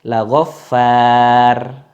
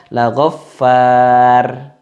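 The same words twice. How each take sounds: The two takes are said the same way.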